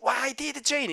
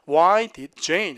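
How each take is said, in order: First: The phrase is said flat, without strong hits. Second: The phrase is said with strong, punchy hits. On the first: The speaker calls it wrong. "이게 아니라" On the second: The speaker calls it right. "이렇게 때려줘"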